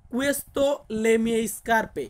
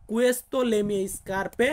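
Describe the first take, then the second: First: "Questo le mie scarpe" drawn out, syllable by syllable; very slow model sentence. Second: "Questo le mie scarpe" again, very slow with a rising end; slow repeat. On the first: Teacher dictating the Italian sentence slowly to students. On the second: Teacher repeating the Italian sentence for students. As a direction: repeat "Questo le mie scarpe" slowly, lifting the last word. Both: Shown as a demonstration. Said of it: "আমরা একই বলবো".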